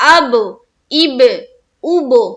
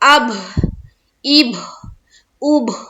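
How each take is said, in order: First: Each release is clear with no breathy air. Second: Air escapes audibly from the throat on each release. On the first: The speaker calls it right. "Clear" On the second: The speaker calls it wrong. "हलक से हवा सी निकल रही है"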